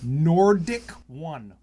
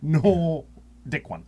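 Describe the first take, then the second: First: The R sound in the name is pronounced. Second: The R sound is dropped, splitting the name.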